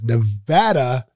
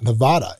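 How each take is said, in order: First: It is said the way locals pronounce it. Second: It is said the way outsiders pronounce it. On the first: This is how people who live there say it. The speaker calls it right. "It's Nevada" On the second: People who live there find this odd. The speaker calls it wrong. "not Nevada. If you say Nevada, people look at you like you're crazy"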